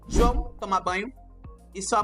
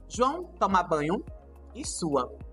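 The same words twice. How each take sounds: First: The voice runs on from 'sua' without stopping. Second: The voice comes to a full stop after 'sua'. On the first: The mother is the one speaking. "sem pontuação" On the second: João is sweating while he bathes. "Vai suar. Ponto"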